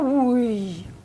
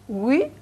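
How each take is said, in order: First: The pitch falls across the word. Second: The pitch rises across the word. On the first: The speaker calls it wrong. "c'est pas naturel" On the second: The speaker calls it right. "en montant, c'est bien"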